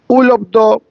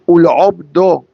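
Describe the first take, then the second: First: The guttural Ain sound is left out. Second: The guttural Ain sound is pronounced strongly. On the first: It means to get rid of God. The speaker calls it wrong. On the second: It means to serve God. The speaker calls it right.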